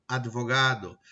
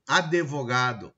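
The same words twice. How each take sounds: First: Said in the usual way. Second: "Advogado" slowly as "adevogado"; slow "Advogado" with extra syllable: "a-de-vo-gado"; colloquial mispronunciation. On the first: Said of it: "da língua coloquial e da norma culta". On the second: Shown as a demonstration. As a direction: add an e after the d in "Advogado". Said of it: "que a gente ouve diariamente isso".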